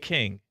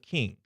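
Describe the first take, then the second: First: The vowel sounds like the one in 'cane'. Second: The vowel sounds like the one in 'kin'. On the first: "I say king" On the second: "instead of king"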